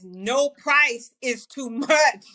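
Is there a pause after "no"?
no. It is said without a pause after "no".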